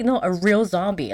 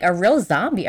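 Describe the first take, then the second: First: "a real zombie" stated firmly with a falling end; insistent correction. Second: "A real zombie" with a questioning rise; doubtful question. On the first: Answering Velma's doubt, "a real zombie" as an insistent statement. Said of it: "He's like". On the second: Velma doubting the zombie story, "A real zombie" as a sceptical question. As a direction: query "real zombie" with a lift at the end. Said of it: "Velma's just like". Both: Retold or imitated.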